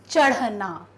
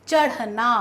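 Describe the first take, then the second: The two takes are said the same way.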